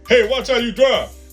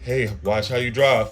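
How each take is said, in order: First: The line is said in a sharp, aggressive tone. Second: The line is said in a mild, casual tone. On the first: This is how a man hears it. "In a man's ear, that shit's like" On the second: This is how the woman actually says it. "She can be like"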